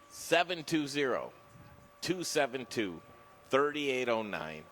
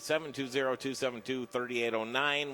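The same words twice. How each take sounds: First: The number is said slowly. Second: The number is said fast.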